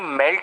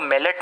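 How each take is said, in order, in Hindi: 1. l और t बिना स्वर के जुड़ते हैं। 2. एक अतिरिक्त स्वर l और t को अलग करता है। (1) "मेल्ट होगा, ल आधा और टी पूरा" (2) "मेलेट नहीं"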